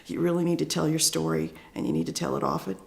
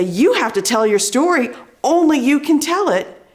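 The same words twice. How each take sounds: First: Soft, slumped, self-doubting delivery; unconfident, slinking back. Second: Loud, high, emphatic stage delivery; confident, commanding. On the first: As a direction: say it small, as if you don't believe yourself. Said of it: "I kinda slinked back and my shoulders went down". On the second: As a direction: step up and own the stage with conviction. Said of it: "If I step up and I use the stage". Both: Shown as a demonstration.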